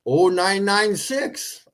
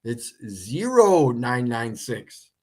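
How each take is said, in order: First: "oh nine nine six" read slowly with "oh" for the zero. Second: "It's zero nine nine six." slowly, stressing "zero"; "zero" said fully. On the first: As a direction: say the digit as the letter "oh". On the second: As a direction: correct it, landing on "zero". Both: Shown as a demonstration. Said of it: "Why did you put the letter O".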